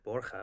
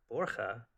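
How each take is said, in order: First: Said in the usual way. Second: "Borja" echoed back as a question. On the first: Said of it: "and he said". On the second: Retold or imitated. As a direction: repeat "Borja" in mock query, pitch jumping mid-word. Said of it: "I was like".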